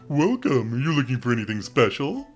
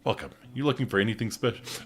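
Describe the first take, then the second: First: It is said in the doofy Elliot voice. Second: It is said without the doofy Elliot voice.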